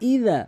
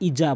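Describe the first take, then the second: First: The middle consonant is a soft th sound. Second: The middle consonant is a buzzing z sound. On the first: The speaker calls it right. "জিহ্বার আগা দাঁতের আগা থেকে ইদা" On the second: The speaker calls it wrong. "ইজা বলা যাবে না"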